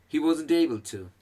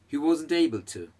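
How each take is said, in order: The two takes are said the same way.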